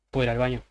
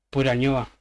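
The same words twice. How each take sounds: First: Said in the usual way. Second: "ñoba" as reversed slang for baño, a bit louder; wrong slang take. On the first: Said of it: "le vas a decir". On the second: Shown as a demonstration. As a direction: ask for the "ñoba" casually, the wrong way to a boss. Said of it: "no le vas a decir a tu jefe".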